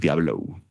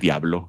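First: It is said with an American English accent. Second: It is said with a native Spanish accent. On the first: The speaker calls it wrong. "hace un acento gringo" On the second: The speaker calls it right. "él sí dice Diablo"

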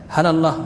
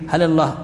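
The two takes are said the same way.

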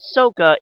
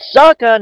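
First: The first vowel sounds like the vowel in 'so'. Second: The first vowel sounds like the vowel in 'sock'. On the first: The speaker calls it wrong. "not Sokka" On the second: The speaker calls it right. "It's Sokka"

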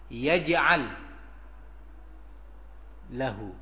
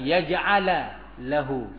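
First: Yaj'al ends on the l with no vowel. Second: Yaj'al ends with an added a vowel. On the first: The speaker calls it right. "tapi yaj'al pakai sukun lagi" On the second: The speaker calls it wrong. "bukan yaj'ala lahu"

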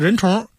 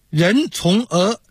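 First: The er sound merges into the last syllable. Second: The er is said as a separate syllable. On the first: The speaker calls it right. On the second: The speaker calls it wrong.

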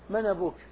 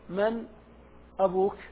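First: The glottal stop is dropped; its vowel joins 'man'. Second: The glottal stop before 'abuka' is clearly pronounced. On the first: "حذفها وانقل حركتها إلى الساكن قبلها" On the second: "هذا يسمونه التحقيق"

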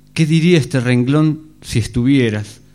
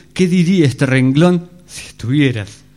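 Both takes have the same delivery.

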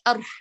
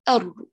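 First: The r is breathy with escaping air. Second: The r is fully voiced and firm. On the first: The speaker calls it wrong. "أنا قدمت أر على طول تهمس" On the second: The speaker calls it right. "تقوي اعتمادك على المخرج والوتران يتقاربان"

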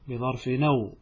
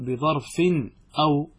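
First: The words link with no glottal stop between them. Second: A glottal stop separates the two words. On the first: The verse keeps its meter. The speaker calls it right. "هكذا تقرأها بدون همزة" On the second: The verse's meter is broken. The speaker calls it wrong. "لا تقول بظرف أو، هكذا تكسر البيت"

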